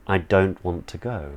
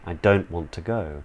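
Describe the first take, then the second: Both takes have the same delivery.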